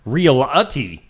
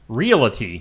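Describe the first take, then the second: First: An extra uh sound gives it three syllables. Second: No extra sound, so it has two syllables. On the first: The speaker calls it wrong. "there is no uh in realty" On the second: The speaker calls it right. "It's just Realty"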